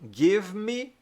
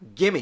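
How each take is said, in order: First: Two full words are said separately. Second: The words are run together quickly into one.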